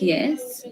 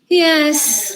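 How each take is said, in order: First: The word is said as a question. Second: The word is said in a fed-up way. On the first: The speaker is asking something. "asking something like yes" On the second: The speaker does not really agree. "With a fed up"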